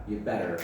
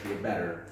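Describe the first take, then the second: First: It is said in an American accent. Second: The same.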